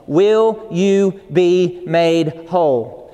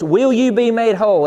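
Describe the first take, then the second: First: Very slow, weighty question; solemn voice of God. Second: Higher and louder, firm demand; stern authoritative God. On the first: Preacher voicing Jesus at the pool, slow and solemn. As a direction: let each word land slowly and gravely. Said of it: "I could hear the voice of God so loud and so strong". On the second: Preacher voicing God's firm, authoritative challenge to him. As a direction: press the question like a firm command. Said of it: "a stern, firm, authoritative voice". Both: Retold or imitated.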